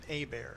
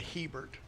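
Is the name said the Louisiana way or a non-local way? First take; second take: Louisiana; non-local. First: The name is said the Louisiana way. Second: The name is said in a non-local way. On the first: The speaker calls it right. "I married an ... correct Louisiana pronunciations" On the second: The speaker calls it wrong. "I didn't marry a"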